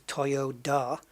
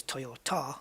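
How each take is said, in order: First: Toyoda with a d, toy-oh-DA; owner's name. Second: Toyota with a t, toy-oh-TA; car's name. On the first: Gamer naming the company's owner, Toyoda with a d. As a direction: say Toyoda with a clear d before the last vowel. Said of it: "the guy who owns the company". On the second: Gamer contrasting car and owner, Toyota with a t. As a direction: say Toyota with a clear t before the last vowel. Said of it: "but the car is Toyota". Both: Shown as a demonstration.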